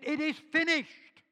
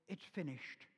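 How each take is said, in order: First: The phrase is shouted out loudly. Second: The phrase is said quietly and weakly. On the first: It is a triumphant declaration of completion. "He shouted it out" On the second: It is a weak, resigned ending. "just sort of say"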